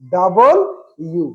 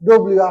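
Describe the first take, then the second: First: It is said as the full form 'double you'. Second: It is said as the clipped form 'dobliu'. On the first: The speaker calls it right. "এটা উচ্চারণ হচ্ছে ডাবল ইউ" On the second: The speaker calls it wrong. "সারা জনম এটা পড়ছি কি আমরা ডব্লিউ"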